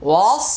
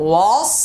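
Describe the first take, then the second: Both takes have the same delivery.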